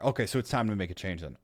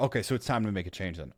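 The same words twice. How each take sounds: First: It sounds gentle, level and understanding. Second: The same.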